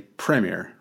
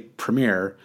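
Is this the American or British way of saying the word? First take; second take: British; American. First: The word is said the British way. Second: The word is said the American way. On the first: "over there, I think they say premier" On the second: "in the US, we say premiere"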